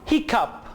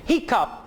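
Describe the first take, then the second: No difference in how they are said.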